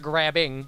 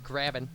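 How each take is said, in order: First: The word ends with a full -ing sound. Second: The word ends with an -in sound. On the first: The speaker calls it wrong. "It's not grabbing" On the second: The speaker calls it right. "No G in grabbing"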